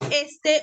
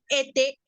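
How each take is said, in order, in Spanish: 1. El sonido s antes de la t se pronuncia. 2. El sonido s antes de la t se omite. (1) "a vez de pronunciar este" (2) "dicen ete"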